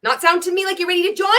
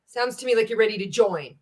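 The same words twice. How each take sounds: First: High, quick, rising to a stretched "join"; mocking upswing on "ready to join". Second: "join" lowered at the end, a settled statement; no mockery, let "join" drop; downward tonality. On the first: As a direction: tease it in a raised voice up to "join". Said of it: "Like mocking". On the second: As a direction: say "ready to join" with the pitch falling on "join". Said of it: "Notice the in tonality". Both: Shown as a demonstration.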